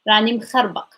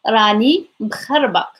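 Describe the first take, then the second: First: The phrase is said at a normal speed. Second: The phrase is said slowly and deliberately.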